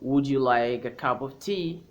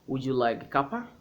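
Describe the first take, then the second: First: The words 'cup of' are said in full. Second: The words 'cup of' are merged into 'cuppa'. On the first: "instead of saying" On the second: "It's an informal British way to say uh, a cup of tea"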